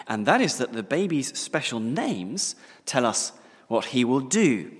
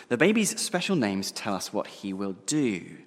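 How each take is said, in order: First: Louder, pressing each word home; a preacher's emphatic proclamation; emphatic first statement. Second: Said in the usual way. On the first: Shown as a demonstration. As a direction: announce it with weight, raised and forceful.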